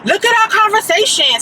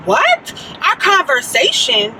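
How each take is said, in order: First: High, insistent mock demand; high-voiced imitation of an insistent man; imitating the caller. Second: High "what", then slower disbelieving repeat; retold stunned questioning; incredulous echo. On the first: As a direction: mimic a pushy caller, pitched way up. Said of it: "the dude was like". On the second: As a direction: throw his words back in disbelief. Retelling her disbelief at caller's claim.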